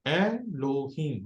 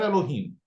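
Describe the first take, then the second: First: एलोहीम very slowly as ए, लो, हीम; slow teaching split of एलोहीम; syllable by syllable. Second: Said in the usual way. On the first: Shown as a demonstration. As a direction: draw out each of the three syllables in एलोहीम. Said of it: "एक एक syllable करके पूरे लफ्ज के आपने टुकड़े". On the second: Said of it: "पूरे लफ्ज के आपने टुकड़े करके उसको".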